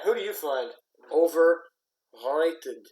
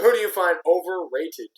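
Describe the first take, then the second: First: It is said in a put-on French accent. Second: It is said in the speaker's normal accent.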